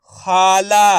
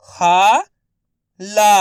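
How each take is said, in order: First: खाला joined with no gap, both vowels long; blended word. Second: खाला split as खा, long pause, ला; syllable by syllable. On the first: Teacher modelling the whole word for learners, blended. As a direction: blend खाला into one level, held word. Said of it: "उसी तरीके से आपको भी". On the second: Teacher sounding out letters for learners, syllable by syllable. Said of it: "एक अक्षर का उच्चारण करके". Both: Shown as a demonstration.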